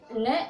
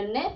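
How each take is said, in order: First: न said as a short open "na", the way it should not be read; wrong vowel na. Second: ने said with a clear "e" sound, as in net; correct vowel e. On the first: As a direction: read न with a plain "a" sound, as the wrong take. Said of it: "इसको तो ना बोलते हैं". (गलत उच्चारण: न को "ना" की तरह) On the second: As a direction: read ने with the vowel "ए", as the right take. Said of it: "इसको ए करके बोलेंगे". (सही उच्चारण: ने, "ए" की आवाज़ के साथ) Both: Shown as a demonstration.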